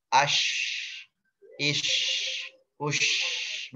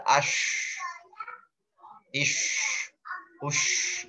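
First: "Ash, ish, ush" with a long hissed sh; tafashi sh. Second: "ash, ish, ush" with the sh hissed and the lips flat; not pouted. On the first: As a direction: let the air spread inside the mouth on "Ash, ish, ush". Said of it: "yang di dalam ada". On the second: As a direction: hiss "ish" with unrounded lips, no pout. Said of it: "Maka dia tidak monyong". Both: Shown as a demonstration.

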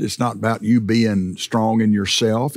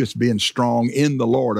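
First: Pastor pressing "you" with a lift at the end; stress on you. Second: Pastor punching "in" with a falling close; stress on in. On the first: Contrasting strength in yourself, stressing "you". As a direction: lean on "you", rising. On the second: Answering the contrast, stressing "in". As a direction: lean hard on "in", falling. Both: Shown as a demonstration.

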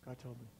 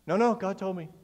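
First: Very soft, low aside; hushed mock insistence. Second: Firm, brushing-off mock refusal; insist, imitating a stubborn believer; mock insistence. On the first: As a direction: repeat it under the breath, imitating the believer. Same insistence repeated under breath.

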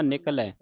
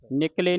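First: ਨਿਕਲੈ ending in an open "ai" sound; correct open ending. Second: ਨਿਕਲੇ ending in a close "ay" sound; wrong vowel ending. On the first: Teacher models correct reading, ਨਿਕਲੈ with open final ai. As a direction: open and drop the last vowel of ਨਿਕਲੈ. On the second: Teacher warns readers off this form, ਨਿਕਲੇ with narrow final e. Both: Shown as a demonstration. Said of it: "ਨਿਕਲੇ ਨਹੀਂ ਪੜ੍ਹਨਾ".

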